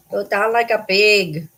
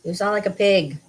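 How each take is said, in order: First: Slow, drawn-out teasing; teasing pet talk. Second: Said in the usual way. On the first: Real, not acted. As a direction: tease the pet, stretching the words out. Teasing repeat to snorting pet.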